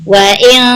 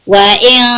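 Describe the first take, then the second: No difference in how they are said.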